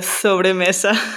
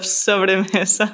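First: The s sound is lisped like a th. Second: The s sound is a plain hissing s. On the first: It sounds like a speaker from Spain. "you kind of did the sobremesa" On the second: It sounds like a Latin American speaker. "instead of sobremesa"

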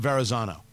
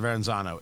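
First: No extra n sound comes before the z. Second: An extra n sound comes before the z. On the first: The speaker calls it right. "There is no first N" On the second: The speaker calls it wrong. "I'm also pronouncing it wrong"

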